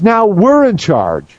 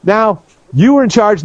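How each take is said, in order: First: "we're" punched, slow and deliberate; stress on we're. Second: "you" stressed as the first half of a contrast. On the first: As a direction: hit "we're" to answer the contrast. Contrasts who is now in charge. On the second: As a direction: lean on "you", pitched up. Contrasts who was in charge. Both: Retold or imitated.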